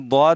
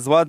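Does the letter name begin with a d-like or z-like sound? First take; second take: d-like; z-like. First: The letter name begins with a d-like sound. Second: The letter name begins with a z-like sound. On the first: The speaker calls it right. "यह द्वाद है" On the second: The speaker calls it wrong. "अक्सर लोग इसको ज़्वाद पढ़ते हैं"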